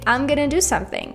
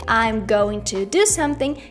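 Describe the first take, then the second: First: Going to is reduced to gonna. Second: I'm going to is said in full. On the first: "you can say" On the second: "instead of saying"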